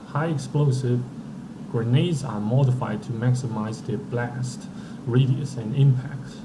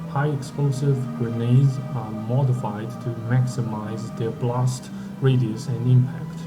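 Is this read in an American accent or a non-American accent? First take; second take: American; non-American. First: It is read in an American accent. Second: It is read in a non-American accent.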